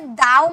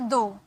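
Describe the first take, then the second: First: The vowel sounds like 'ow'. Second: The vowel sounds like 'oh'. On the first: The speaker calls it wrong. "इसे दाव मत बोलिएगा" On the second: The speaker calls it right. "इससे simple दो"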